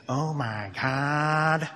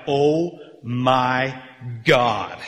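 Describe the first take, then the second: First: Very slow, drawn-out cartoon voice; hammed-up animated-film catchphrase; kids' movie character. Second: Weighty, separated words of amazement; stunned crowd reaction, played out; acted astonishment. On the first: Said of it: "in this voice saying". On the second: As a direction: pause before the last word, landing it hard. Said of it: "everybody in Asia Minor is like".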